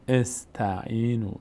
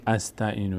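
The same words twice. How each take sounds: First: «استعینو» slower, opening on short e, as estainu; correct initial kasra. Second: «استعینو» opening on short a, as astainu; wrong initial fatha. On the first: («استعینو» شمرده، با کسره در آغاز) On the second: («استعینو» با فتحه در آغاز) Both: Shown as a demonstration.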